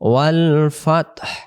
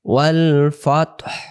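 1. শব্দটি শেষে একটি স্পষ্ট শ্বাসযুক্ত h উচ্চারণ আছে। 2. শব্দটি শেষে একটি স্পষ্ট শ্বাসযুক্ত h উচ্চারণ আছে।

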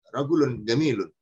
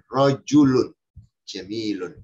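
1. Kedua kata menggunakan bunyi 'g' keras. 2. Kedua kata menggunakan bunyi 'j'. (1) "Tapi kalau orang yang amiyah. ... Jim dibaca gaf" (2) "Dengarkan rajulun jamilun"

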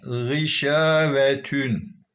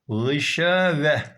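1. Kelime sonradan eklenen 'tun' sesiyle biter. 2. Kelime düz bir ünlüyle biter. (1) "devam edersek" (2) "burada durulduğu takdirde"

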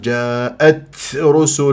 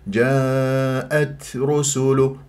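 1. صوت التاء فيه همس ثقيل ومبالغ فيه. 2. صوت التاء فيه همس خفيف ولطيف. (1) "البعض الآن يبالغ" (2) "خليك لطيف"

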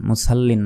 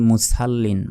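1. "s" হলো একটি হালকা, পাতলা seen ধ্বনি। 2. "s" হলো একটি হালকা, পাতলা seen ধ্বনি।

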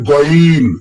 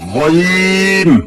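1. এটি বাংলা 'গ'-এর মতো শক্ত g দিয়ে শুরু হয়। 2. এটি নরম, গলায় ঘষা এক ধরনের ধ্বনি দিয়ে শুরু হয়।

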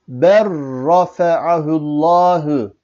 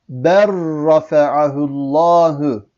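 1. L sesi, çift r sesine karışır. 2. L sesi, çift r sesine karışır.

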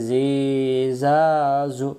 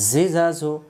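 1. স্বরধ্বনিগুলো লম্বা করে টানা হয়। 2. স্বরধ্বনিগুলো ছোট ও দ্রুত। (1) "তাহলে পড়া সহি হবে না" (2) "হারকাতের উচ্চারণ তাড়াতাড়ি পড়তে হয়, টেনে টেনে পড়া যাবে না"

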